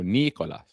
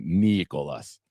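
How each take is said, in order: First: Put-on "Nicolas" said the Russian way, ni-ko-LAS, in a light Russian accent; a quick joking Russian accent on "Nicolas"; mock Russian accent. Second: Said in the usual way. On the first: Host reading a chat name, slipping into a joke Russian accent. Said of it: "What the fuck did I do that accent for?". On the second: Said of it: "when I see it without the H, I immediately think it's Russian".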